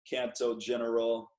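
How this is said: It is said with an American English accent.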